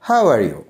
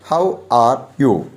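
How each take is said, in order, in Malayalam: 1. വാക്കുകൾ ചേർത്തും ചുരുക്കിയും പറയുന്നു. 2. ഓരോ വാക്കും വെവ്വേറെ, പൂർണ്ണമായി പറയുന്നു.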